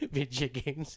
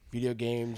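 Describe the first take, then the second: First: The first word ends with a reduced 'yuh' sound. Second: The first word ends with a clear 'oh' sound.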